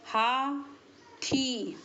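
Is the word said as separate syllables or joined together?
separate syllables. The two syllables are said apart, with a break.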